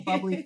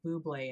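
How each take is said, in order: First: It is said like the everyday word bubbly. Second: It is said like the singer's surname Bublé. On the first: It is the drink's actual name. The speaker calls it right. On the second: It echoes the singer who appears in the commercial. The speaker calls it wrong.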